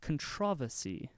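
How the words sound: The word is said in a British way.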